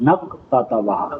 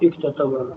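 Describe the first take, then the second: First: The word is linked to a preceding 'n' sound. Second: The word starts on its own with 'ik'. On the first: The speaker calls it right. "یہاں نون کی ضرورت" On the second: The speaker calls it wrong. "اگر نون نہ ملائیں تو یہ ہوگا"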